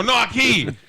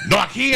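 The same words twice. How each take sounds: First: Mock insistence. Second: High, loud driver echoing No aquí. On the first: He echoes back, louder. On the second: Retold or imitated. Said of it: "my accents are bad".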